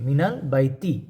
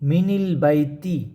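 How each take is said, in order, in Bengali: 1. 'min'-এর পরের যোগসূত্র স্বরটি 'a'। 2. 'min'-এর পরের যোগসূত্র স্বরটি 'i'। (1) "নুনে ফাতা হবে" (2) "এখানে যদি কাসরা দেওয়া হতো কী হইতো?"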